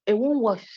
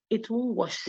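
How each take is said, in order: First: "won't" hit higher and louder; stress on won't. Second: Said in the usual way. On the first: Shown as a demonstration. Lecturer insisting to students the posturing fails, stressing "won't". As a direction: punch the word "won't" firmly. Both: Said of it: "It's not the English".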